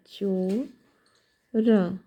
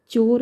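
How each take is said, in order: First: चोर said very slowly, the च kept light; carefully sounded out word. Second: Said in the usual way. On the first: Shown as a demonstration. (चोर को धीरे-धीरे, हल्के च के साथ) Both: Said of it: "ध्यान रहे च जो है हल्का है".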